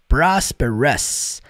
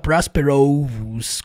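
First: The ending is reduced to a weak vowel. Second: The ending is said fully, as spelled. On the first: The speaker calls it right. "Você vai falar prosperous" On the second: The speaker calls it wrong. "com O-S, do jeito que tá escrito aqui, não"

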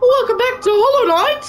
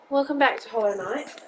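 First: It is said with lots of energy. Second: It is said flatly, with little energy.

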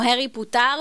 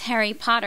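First: It is said with an Israeli accent. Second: It is said with an American accent. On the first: The speaker calls it wrong. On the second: The speaker calls it right.

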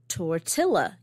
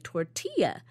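First: The double L is said the English way. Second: The double L is said the Spanish way. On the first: The speaker calls it wrong. "you don't say tortilla" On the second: The speaker calls it right. "you say tortilla. And in that word, it's the double L"

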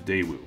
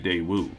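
First: The stress is on the first syllable. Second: The stress is on the last syllable. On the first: The speaker calls it right. "The emphasis should be on the first syllable, not the last" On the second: The speaker calls it wrong. "After at least one viewer pointed this out as being incorrect"

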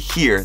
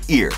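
First: The word begins with an h sound. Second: The word begins without an h sound. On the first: "They don't say here" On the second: "they say ear"

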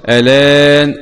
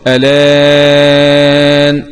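First: The vowel after the hamza is held short. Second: The vowel after the hamza is held medium length. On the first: "القصر" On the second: "والتوسط"

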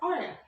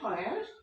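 First: The final r is dropped. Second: The final r is fully pronounced. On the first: "ব্রিটিশরা বলছে" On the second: "আমেরিকানরা বলছে"

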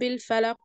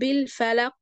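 First: The final q is held still without any bounce. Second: The final q is released with a clear bounce. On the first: The speaker calls it wrong. "ما ينفعش مثلا اقول ... حرف القاف مش هيتسمع كده" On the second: The speaker calls it right. "لازم اعمل له ذبذبة واظهره"

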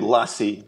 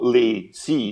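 First: The name is said as one word, like Lassie. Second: The name is said as two separate words. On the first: This is how it is said in France. "here in France, we say Lassie, like the dog" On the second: This is how it is said in America. "in America, they sort of go Lacey as if it was two different words"

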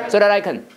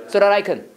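The two takes are said the same way.

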